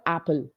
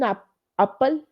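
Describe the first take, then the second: First: "apple" started with an open "a" as in cat; "apple" as "aa-pple", the standard way; open A sound. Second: "apple" started with an uh sound, like "uppal"; "apple" as "uh-pple", offered as a test. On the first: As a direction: say "apple" with a clear, open front A. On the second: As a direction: say "apple" with a short uh for A. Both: Shown as a demonstration. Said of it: "what is the sound of A".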